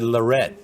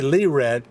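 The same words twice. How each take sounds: First: The stress is on the last syllable. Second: The stress is on the first syllable. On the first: This is how people elsewhere in the country say the name. "you said Lorette, ... in other parts of the country they put the emphasis on the last part" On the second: This is how the local community says the name. "We say Lorette, ... we put the emphasis on the first part"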